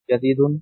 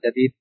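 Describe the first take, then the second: First: The word ends with a full -un ending. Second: The word stops on the final consonant. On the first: "আমরা এখানে পরিপূর্ণ স্পষ্ট উচ্চারণ করি।" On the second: "শেষ করে সাকিন করে আর কি।"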